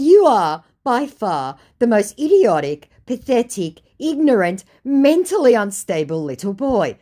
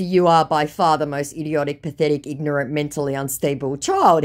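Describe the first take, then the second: First: High, loud, measured list of insults; scathing insult. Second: Said in the usual way. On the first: Retold or imitated. Woman telling off the scammer, scathing. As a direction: land each adjective separately.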